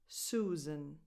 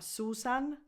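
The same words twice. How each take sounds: First: The last syllable has a reduced schwa vowel. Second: The last syllable has a full, clear vowel. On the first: The speaker calls it right. "the last vowel is just a schwa" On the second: The speaker calls it wrong. "Not Susan"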